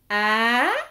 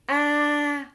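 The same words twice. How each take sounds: First: The pitch rises throughout. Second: The pitch stays level throughout. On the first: "L'accent aigu, a, qui monte" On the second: "le ton neutre, a, donc sans accent"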